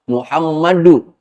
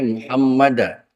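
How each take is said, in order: First: The word ends with a final 'u' vowel. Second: The word ends with a final 'a' vowel. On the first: The speaker calls it right. "itu harus dibaca dhammah" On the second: The speaker calls it wrong. "nggak boleh"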